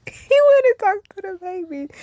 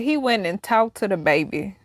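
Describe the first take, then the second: First: Pitched way up, amused and incredulous; high laughing disbelief. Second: Said in the usual way. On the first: Shown as a demonstration. Retelling the ghost visiting the baby, high and amused. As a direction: squeak it out in disbelief.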